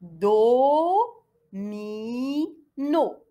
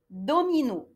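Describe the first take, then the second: First: Do-mi-no, each syllable apart. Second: Said in the usual way. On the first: Shown as a demonstration. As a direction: split into three beats. (syllabe par syllabe) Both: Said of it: "le mot fait trois syllabes".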